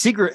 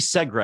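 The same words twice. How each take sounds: First: "Segra" said high as SEE-gruh; first vowel of "Segra" as a long ee; long-ee pronunciation. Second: "Segra" said as SEG-ruh; first vowel of "Segra" short, as in "egg"; short-e pronunciation. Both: Shown as a demonstration. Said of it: "I think it's actually Segra".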